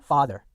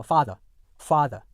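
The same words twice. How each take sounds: First: FATHER with open ah and final R sounded; American pronunciation. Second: FATHER with long ah and no final R; British pronunciation. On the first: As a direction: say father American-style, ending in -er. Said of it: "미국 영어 같은 경우는요". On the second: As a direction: say father British-style, ending "-uh". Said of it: "영국 영어에서는요". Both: Shown as a demonstration.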